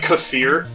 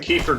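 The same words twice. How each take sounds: First: It is said unlike the name Kiefer. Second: It is said like the name Kiefer. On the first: "It's it's like kefir" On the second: "I like to pronounce it like Kiefer Sutherland"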